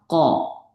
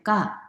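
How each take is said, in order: First: It sounds heavy and resonant, with the tongue pressed down. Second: It sounds light, like a tense Korean k. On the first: The speaker calls it right. "혀를 눌러주셔야 돼요" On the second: The speaker calls it wrong. "소리가 너무 가벼워요"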